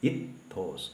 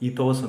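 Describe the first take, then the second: First: The t sound is doubled and held. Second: The t sound is short and single. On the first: The speaker calls it right. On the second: The speaker calls it wrong.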